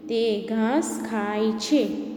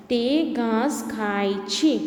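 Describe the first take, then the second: First: તે ઘાસ ખાય છે read slowly again, ઘાસ leaned on; slow reading aloud. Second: તે ઘાસ ખાય છે read word by word, slowly; slow reading aloud. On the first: Teacher repeats the sentence slowly for pupils. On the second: Teacher reads the sentence slowly to pupils. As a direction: read it out slowly like for small children. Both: Shown as a demonstration. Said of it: "વાક્ય વાંચીશું".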